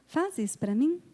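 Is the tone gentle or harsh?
gentle. The request sounds gentle and kind. The request is made peacefully and wins the listener over. The speaker calls it right. "A mesma coisa, ... até o tom de voz é diferente"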